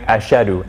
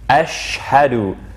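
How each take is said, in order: First: The h after the sh is left out. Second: A clear h follows the sh sound. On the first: The speaker calls it wrong. "as if the ha, the ha is not there" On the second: The speaker calls it right. "hence sh and then h"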